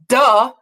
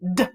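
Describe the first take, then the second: First: An uh vowel follows the d sound. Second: The d sound is said with no vowel. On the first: The speaker calls it wrong. "I don't want you to put a uh behind it. It's not duh" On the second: The speaker calls it right. "it's d"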